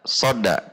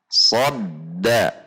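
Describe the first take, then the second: First: The d is single with no hold. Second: The d is doubled with a brief hold. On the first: The speaker calls it wrong. "tidak dibaca soda, soda, nanti tasydidnya hilang" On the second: The speaker calls it right. "seperti berhenti sejenak. Sodda"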